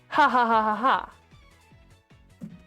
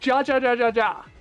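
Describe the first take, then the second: First: Each syllable starts with an H sound. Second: Each syllable starts with an English J sound. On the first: The speaker calls it right. "Spanish J is an H. So it still is read ha ha ha ha ha" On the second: The speaker calls it wrong. "I was reading that as ja ja ja ja ja"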